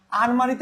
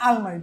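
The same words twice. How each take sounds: First: Said in the usual way. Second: আলমারি with l in place of the first r; dissimilated pronunciation. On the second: Shown as a demonstration. Teacher giving a dissimilation example, আলমারি with a clear l. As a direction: say আলমারি as almari, not armari. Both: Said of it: "এই র পরিবর্তন হয়ে ল হয়েছে".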